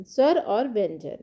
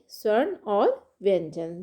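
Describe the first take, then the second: First: स्वर said cleanly as svar, no n at the end; the teacher's fix: स्वर pronounced correctly as sar; स्वर, said right the second time; corrected pronunciation. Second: स्वर्ण said as sarn with a nasal n, a misspoken svar; the first word comes out as स्वर्ण instead of svar, then is corrected; स्वर्ण stumbled as swarn before the fix; slip of the tongue. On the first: Shown as a demonstration. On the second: Real, not acted.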